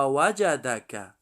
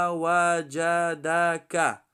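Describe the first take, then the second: First: Said in the usual way. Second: وجدک slowly, every syllable stretched; slow teaching read of وجدک. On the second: Shown as a demonstration. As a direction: sound out وجدک evenly and slowly. Spells word syllable by syllable.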